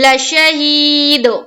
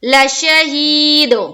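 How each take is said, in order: First: The final d bounces with a double sound. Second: The final d bounces with a double sound.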